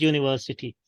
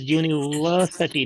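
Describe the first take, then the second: First: UNIVERSITY with SIH before TY; quick UNIVERSITY, short I in SI; wrong pronunciation. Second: UNIVERSITY with weak SUH before TY; correct pronunciation. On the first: Teacher shows university to avoid, quick SIH syllable. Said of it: "not university". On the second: Teacher gives correct university, weak SUH syllable. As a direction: say UNIVERSITY with a schwa in SI. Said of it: "the correct pronunciation of this word". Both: Shown as a demonstration.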